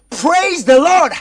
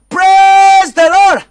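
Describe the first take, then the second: First: The vowel in praise glides toward a faint ee. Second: The vowel in praise is plain without glide. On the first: The speaker calls it right. "Il faut accompagner le son et d'un i flou" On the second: The speaker calls it wrong. "Ça sonne, mais c'est trop normal"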